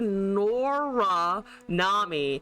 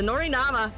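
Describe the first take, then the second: First: The name ends with an 'ee' sound. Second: The name ends with an 'ah' sound. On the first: The speaker calls it right. "it's supposed to be Nora Nami" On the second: The speaker calls it wrong. "I said Nori Nama"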